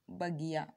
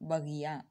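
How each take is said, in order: Both takes have the same delivery.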